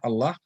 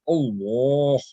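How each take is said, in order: First: The L is light and thin. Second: The L is heavy, with a full mouth. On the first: The speaker calls it wrong. "not Allah" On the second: The speaker calls it right. "It has to be with a full mouth"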